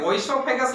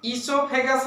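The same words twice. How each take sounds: First: ओइसोफेगस begun with "o-i"; ओइसोफेगस read as spelt, "oi-so-phegas"; spelling pronunciation. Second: ईसोफेगस begun with a long "ee"; ईसोफेगस as it is said, starting "ee-so"; spoken pronunciation. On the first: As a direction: sound the written O at the start of ओइसोफेगस. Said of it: "लिखा रहता है". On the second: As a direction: say ईसोफेगस with no "o" before the "ee". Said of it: "हम लोग कहते हैं". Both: Shown as a demonstration.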